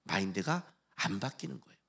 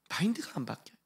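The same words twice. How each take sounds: First: Said in the usual way. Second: Whispered, voiceless repeat of 마인드가; soft whispered echo. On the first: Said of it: "마인드가 안 바뀌어요 (whisper)". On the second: Shown as a demonstration. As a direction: hush it like a secret. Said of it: "unvoiced repeat".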